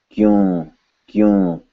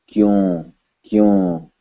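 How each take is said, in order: Both takes have the same delivery.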